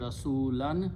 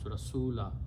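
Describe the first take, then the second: First: The word ends with an n sound. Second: The word ends on a vowel. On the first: The word is read without stopping on it. "So it becomes Rasulan" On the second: The reader stops on the word. "When you stop, you pronounce Rasula"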